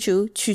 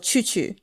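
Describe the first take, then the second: First: The vowel is a plain oo sound. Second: The vowel is an ee with rounded lips. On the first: The speaker calls it wrong. "not choo choo, like chewing on something or like a train" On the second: The speaker calls it right. "keep your lips the same, but try to make the E sound"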